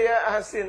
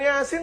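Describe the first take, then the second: First: It is split into two separate words. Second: It is said as one smooth word. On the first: It sounds like saying 'yes, salty'. The speaker calls it wrong. "yang dibaca ya asin" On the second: The name of a Quran chapter. The speaker calls it right. "Bukan Yasin"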